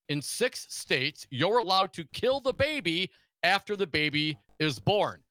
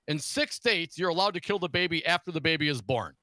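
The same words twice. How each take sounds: First: The sentence is spoken slowly and deliberately. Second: The sentence is spoken at a normal pace.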